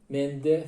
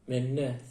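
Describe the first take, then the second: First: The middle consonants are n followed by d. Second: The middle consonant is a long doubled n. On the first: This is the written standard form. "yazılır" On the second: This is how speakers actually say it. "İki N olur"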